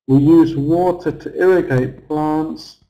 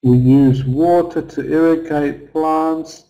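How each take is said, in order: First: "use" punched along with "water" and "plants"; every content word stressed, starting from "use"; stress on use too. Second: "water" stressed on its first syllable, "WAter"; content-word stress with "water" on top. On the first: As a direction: hit the verb "use" clearly. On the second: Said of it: "So water is stressed on the first". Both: Shown as a demonstration.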